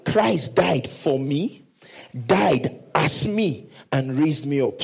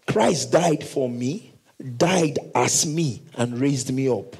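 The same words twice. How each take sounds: First: Very slow, each phrase weighted; slow emphatic repetition. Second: "Christ" and "died" drawn out slowly; slow emphatic recital. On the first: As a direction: say it slowly for them to repeat. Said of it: "Let's say it again". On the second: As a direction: spell out each phrase slowly. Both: Shown as a demonstration.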